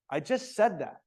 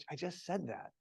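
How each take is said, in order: First: Mildly annoyed snap; a touch of a teacher's irritation. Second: Soft, patient and friendly; gently, a patient teacher; gentle. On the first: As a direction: let a little impatience show. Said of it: "Don't you know that I'm annoyed?". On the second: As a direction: say it kindly, no edge. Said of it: "exactly the same words". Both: Shown as a demonstration.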